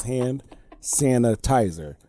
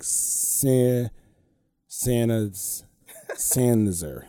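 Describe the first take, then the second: First: "hand sanitizer" slow, every syllable sounded; correcting pronunciation. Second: Halting, low "Sanizer", syllables missing; imitating dropped syllables. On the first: Retold or imitated. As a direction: patiently spell out "sanitizer" in sound, san-i-ti-zer. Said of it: "no, it's hand sanitizer". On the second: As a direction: stumble from "San-" to a squashed "Sanizer" like a toddler. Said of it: "you're missing, like, three syllables".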